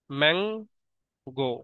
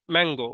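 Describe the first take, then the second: First: mango as two slow beats, Mang, long pause, গো; split into syllables. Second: Said in the usual way. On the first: Shown as a demonstration. Teacher showing learners the two syllables, mango slowly split as Mang — গো. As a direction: break mango in two, stretching Mang before a separate গো. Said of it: "একবার ম্যাং বলতে হচ্ছে, এরপরে গো". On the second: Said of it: "আমরা একবারে কিন্তু mango উচ্চারণ".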